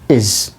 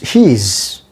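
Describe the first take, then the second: First: It is said in a reduced, weak form. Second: It is said in its full, strong form. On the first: "in weak form it is pronounced is" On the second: "In a strong form it is pronounced his"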